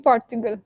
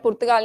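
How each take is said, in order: First: The word has an English-style pronunciation. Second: The word has a Punjabi-style pronunciation. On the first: The speaker calls it right. "It should be Portugal" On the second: The speaker calls it wrong. "Punjabi वाला पुर्तगाल नहीं कर देना"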